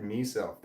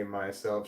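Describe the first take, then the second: First: "meself" with MEE as first syllable; "meself" pronunciation. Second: Said in the usual way. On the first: Retold or imitated. Insisting on what she said, "meself" with an ee. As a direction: say "meself" with a long ee. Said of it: "She said". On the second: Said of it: "definitely did not say".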